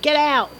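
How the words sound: It is said in a Cockney accent.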